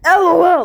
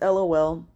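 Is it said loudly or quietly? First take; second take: loudly; quietly. First: It is said loudly, like yelling. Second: It is said quietly, at normal volume.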